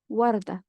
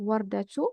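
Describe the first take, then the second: First: The word stops before the t, ending in a. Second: The word ends with a pronounced t and vowel. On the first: "comme si j'ai al-soukoun ici et je vais dire warda" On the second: "au lieu de dire wardatu"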